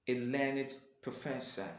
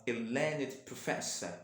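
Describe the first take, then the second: Both takes have the same delivery.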